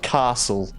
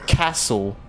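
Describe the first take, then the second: First: Castle is said with a non-Adelaide vowel. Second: Castle is said with an Adelaide vowel. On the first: This is how other Australians say it. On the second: This is how people from Adelaide say it. "you guys say um"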